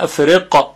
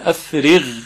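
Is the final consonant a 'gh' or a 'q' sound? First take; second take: q; gh. First: The final consonant is a 'q' sound. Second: The final consonant is a 'gh' sound. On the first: The speaker calls it wrong. "قاف اینطوری میشه افرق که این غلطه" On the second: The speaker calls it right. "صدای اون با قاف فرق میکنه"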